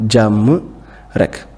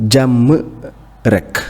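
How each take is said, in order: No difference in how they are said.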